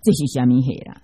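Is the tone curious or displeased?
displeased. It is asked in a displeased tone.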